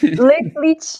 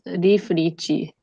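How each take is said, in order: First: The name is said with English sounds. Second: The name is said with Japanese sounds. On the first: "I need the English accent version" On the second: "the Japanese pronunciation in katakana"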